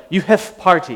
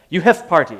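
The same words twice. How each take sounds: First: Mild mock Eastern European accent, a touch higher; lightly put-on Eastern European accent; terrible Eastern European accent. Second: Lightly put-on Eastern European accent; terrible Eastern European accent. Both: Imitating the bonsai grower's Eastern European accent. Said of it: "It was a terrible accent".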